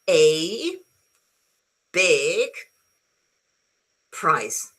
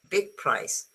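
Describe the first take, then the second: First: The word 'a' is said fully as 'ay'. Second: The word 'a' is a weak unstressed 'uh'. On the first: "if I'm reading and dictating something, I could say" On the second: "this one is always a schwa"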